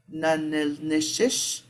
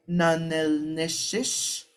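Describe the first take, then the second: First: Nanil-nish-ish repeated slowly with a rising end; Navajo question form. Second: Nanil-nish-ish said slowly, rising at the end; Navajo question form. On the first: Teacher repeating the Navajo question for the class. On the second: Teacher modelling the Navajo question for students. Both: Shown as a demonstration. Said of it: "add that ish to this".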